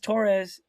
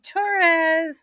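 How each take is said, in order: First: It is said in a plain, ordinary voice. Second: It is said in a Valley Girl voice.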